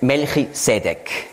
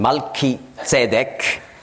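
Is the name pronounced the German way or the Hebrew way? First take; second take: German; Hebrew. First: The name is said with a German pronunciation. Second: The name is said with a Hebrew pronunciation.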